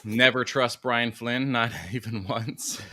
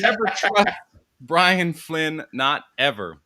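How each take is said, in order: First: Slow, deliberate "Never trust Brian Flynn"; slow slogan. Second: Loud slogan. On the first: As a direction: spell the motto out slowly. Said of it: "To what?". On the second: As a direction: bellow it like a motto. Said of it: "we should all collectively change whatever usernames". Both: Shown as a demonstration.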